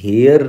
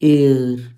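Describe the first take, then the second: First: The word begins with an h sound. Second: The word begins with a vowel, no h. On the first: The speaker calls it wrong. "हेयर नहीं होता कभी" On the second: The speaker calls it right. "इसकी pronunciation हम बोलते हैं एयर"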